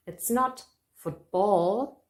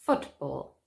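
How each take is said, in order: First: Football said as foot-BALL, the second syllable stressed and drawn out; mock wrong stress, footBALL. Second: Football with FOOT stressed and ball falling. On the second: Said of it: "Stress on the first syllable". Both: Shown as a demonstration.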